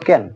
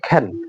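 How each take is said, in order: First: The first k sound has no puff of air. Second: The first k sound has a puff of air. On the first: The speaker calls it wrong. "আমরা বলতাম ক্যান" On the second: The speaker calls it right. "But এটা হবে খেন"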